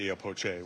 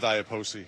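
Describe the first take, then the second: First: The name is said with an Italian pronunciation. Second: The name is said with an American pronunciation. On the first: This is how people say it in Latin America and Italian. "which is how you would say it in Italian" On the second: This is how people say it in the United States. "we go with Iapoce here in the United States"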